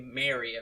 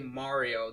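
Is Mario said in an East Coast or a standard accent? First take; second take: East Coast; standard. First: Mario is said in an East Coast accent. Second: Mario is said in a standard accent. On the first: The speaker calls it wrong. "people in the East Coast that say Mario" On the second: The speaker calls it right. "the commercials say Mario"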